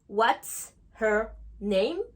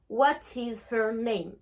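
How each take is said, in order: First: It is contracted and said more quickly. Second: It is said in full, with separate words.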